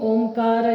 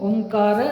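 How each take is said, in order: No difference in how they are said.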